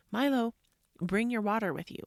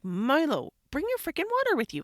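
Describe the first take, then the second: First: Said in the usual way. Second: Loud, high, quick nagging command; exasperated order. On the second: Retold or imitated. Mom ordering son after he refused, exasperated. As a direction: re-enact a parent losing patience.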